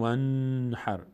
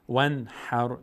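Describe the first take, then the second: First: The voice stops and holds on the n. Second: The n flows straight into the next syllable. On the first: The speaker calls it wrong. "نمیگیم ون حر، نمیستیم روش" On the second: The speaker calls it right. "رد میشیم سریع"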